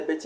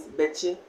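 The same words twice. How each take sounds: First: "beche" with the second syllable CHE stressed. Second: Said in the usual way. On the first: Shown as a demonstration. Teacher showing learners the stressed variant, stress on final che. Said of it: "lay stress on the beche". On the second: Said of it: "But it is beche".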